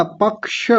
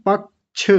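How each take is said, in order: First: पक्ष ending in a clear sh, pakṣh; पक्ष said properly with the ष; correct pronunciation. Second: पक्ष with a ch ending, like pakch; पक्ष mispronounced as pakch; wrong pronunciation. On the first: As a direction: finish पक्ष with a crisp ष hiss. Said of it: "पक्ष नहीं होता". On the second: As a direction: end पक्ष on a छ sound, the common mistake. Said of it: "ऐसे बोल देते हैं". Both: Shown as a demonstration.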